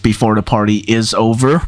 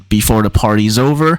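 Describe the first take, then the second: First: 'Party is' is said as two full words. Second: 'Party is' is contracted to 'party's'. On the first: This is how it is sung in the song. "he sings Before the Party is Over" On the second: This is the usual contracted form. "rather than Before the Party's Over"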